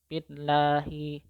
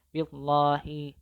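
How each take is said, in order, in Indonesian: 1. L-nya tipis dan ringan, mulut tidak penuh. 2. L-nya tebal dan berat, mulut penuh. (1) "cara membacanya harus tarqiq atau tipis" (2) "tidak boleh billahi, billahi itu tidak boleh karena itu tebal"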